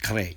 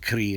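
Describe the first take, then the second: First: The word ends in an 'ay' vowel. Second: The word ends in an 'ee' vowel. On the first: This is how older texts give it. "I've seen uh, older texts go with kre" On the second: This is how people say it today. "today in modern times, people say kri"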